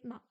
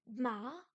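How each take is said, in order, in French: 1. C'est prononcé sans aucun ton. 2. C'est prononcé avec le deuxième ton. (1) "le ton neutre, c'est le ton où il n'y a pas de ton" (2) "Le plus dur à faire, c'est le deuxième ton"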